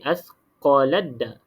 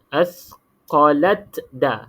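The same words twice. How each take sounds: First: The t merges fully into a doubled d. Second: A separate t is sounded before the d. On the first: The speaker calls it right. "Jadi kita terus masuk dalam huruf da" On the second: The speaker calls it wrong. "yang ni salah"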